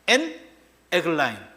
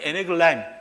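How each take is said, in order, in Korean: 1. 두 부분을 따로, 잠깐 끊어서 읽습니다. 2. 두 부분을 붙여서 한 단어처럼 읽습니다. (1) "정확하게 표현하면 엔 에글라임이에요" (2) "섞어서 읽었더니 에네글라임 이렇게 된 겁니다"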